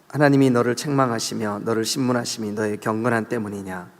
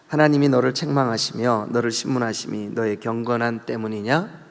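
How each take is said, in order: First: The end is read flat, like a statement. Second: The end is said as a mocking question. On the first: The speaker calls it wrong. "이거 아니죠" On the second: The speaker calls it right. "뒤에가 의문이에요"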